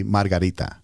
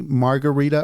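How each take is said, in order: First: "margarita" with Spanish tapped r's, mar-ga-RI-ta; Spanish pronunciation. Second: "margarita" with an English r, mar-guh-REE-tuh; English pronunciation. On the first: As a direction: try "margarita" the Spanish way, tapping each r. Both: Shown as a demonstration. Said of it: "I can't seem to nail down my Spanish accent".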